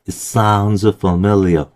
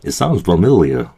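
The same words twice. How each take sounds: First: It is said at a normal pace. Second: It is said a little faster.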